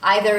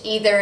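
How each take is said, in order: First: It uses the pronunciation heard as more British. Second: It uses the pronunciation more common in America. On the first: "Either is more British" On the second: "either is more common in the United States"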